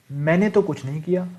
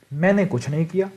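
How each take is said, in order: First: मैंने तो with तो pushed up; stress on तो. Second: Said in the usual way. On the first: Shown as a demonstration. Teacher showing emphasis on तो in a denial. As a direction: lean on मैंने तो to defend yourself. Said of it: "यहाँ पर मैंने जोर दिया है अपने खुद पे". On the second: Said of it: "एक होता है मैंने कुछ नहीं किया".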